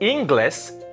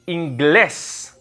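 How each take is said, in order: First: The stress is on the first syllable. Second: The stress is on the last syllable. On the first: The speaker calls it wrong. "It's not inglés because it's not on the I" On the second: The speaker calls it right. "It's on the E, so it's inglés"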